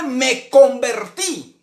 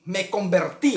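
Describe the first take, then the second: First: "convertí" drawn out slowly, pitched high; emphatic CONVERTÍ. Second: Said in the usual way. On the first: Real, not acted. Preacher telling congregation he also converted, emphatic slow "convertí". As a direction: stretch "convertí" as the key point. Preacher stresses a key repeated phrase.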